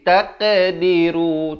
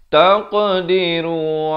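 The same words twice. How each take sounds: First: The qaf is said with spread, flat lips. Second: The qaf is said with rounded lips. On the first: The speaker calls it wrong. "Jangan kita pepiskan jadi taqdiru. Tak mau. Itu salah" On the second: The speaker calls it right. "Yang betulnya taqdiru"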